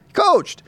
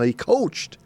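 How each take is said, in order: First: He coached said much higher and louder, insisting; emphatic repeat. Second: Said in the usual way. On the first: Real, not acted. Host repeating "coached" to stress Silas's status, high and emphatic. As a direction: hammer the second "coached" up high.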